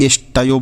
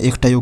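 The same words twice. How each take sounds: First: इष्टयो with a sibilant before the ट; correct sibilant pronunciation. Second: इष्टयो with k or kh replacing the sibilant; kh-variant pronunciation. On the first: Teacher shows the rule to students, इष्टयो said as "ish-tayo". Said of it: "उसका उच्चारण होगा स". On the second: Teacher voices the students' expected reading, इष्टयो said as "ikh-tayo". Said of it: "इस स को तो ख बोलता". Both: Shown as a demonstration.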